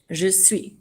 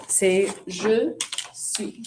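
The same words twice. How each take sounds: First: Said in the usual way. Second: Je suis drawn out slowly for the class; slow model answer. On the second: Shown as a demonstration. Teacher modelling the answer for students, slowly. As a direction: stretch "je suis" so students catch it. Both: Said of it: "de être qui va avec je?".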